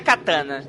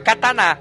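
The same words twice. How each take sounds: First: One syllable carries a strong stress. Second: All syllables are equally strong. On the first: The speaker calls it wrong. "não é katana" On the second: The speaker calls it right. "as sílabas são fortes. Fica katana"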